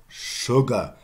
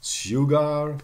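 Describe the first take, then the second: First: SUGAR as "shuh-guh", starting with "sh"; modern pronunciation. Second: SUGAR as "syoo-gar", full -ar ending; Middle English pronunciation. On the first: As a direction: sugar with a short first vowel and "sh". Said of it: "sugar in the end". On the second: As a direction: say Sugar with s plus y, raised and louder. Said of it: "yeah, in Middle English". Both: Shown as a demonstration.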